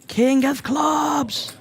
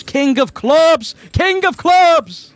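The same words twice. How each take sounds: First: High, very slow, longing call; drawn-out hope. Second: High, loud, drawn-out cry of delight; excited shout. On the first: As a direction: stretch it out hoping for the card. Commentator wishes for the card on the river. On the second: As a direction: yell it out as the card lands. Commentator reacts to a flush card. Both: Real, not acted.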